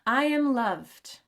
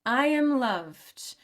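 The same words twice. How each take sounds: Both takes have the same delivery.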